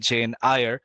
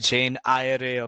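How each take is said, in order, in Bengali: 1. সারনেমটি 'eye-ar' এর মতো করে বলা হয়। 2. সারনেমটি 'eye-a-ray' এর মতো করে বলা হয়। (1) "অথবা জেন আয়ার" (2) "এটাকে অনেকে বলে জেন আয়ারে"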